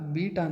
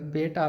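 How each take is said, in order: First: The first vowel sounds like 'ee'. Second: The first vowel sounds like 'ay'. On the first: The speaker calls it right. "ಬೀಟಾ ಅಂತ ಮಾಡ್ಕೊಳ್ಳಿದ್ದು" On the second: The speaker calls it wrong. "ಇದು ಬೇಟಾ ಅಲ್ಲ"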